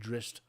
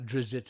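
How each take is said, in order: First: The name is said with a hissing s sound. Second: The name is said with a buzzing z sound. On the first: The speaker's group usually says it this way. "but Drist, double Z's or an S's" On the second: Some other people say it this way. "Not Drizzt as some people"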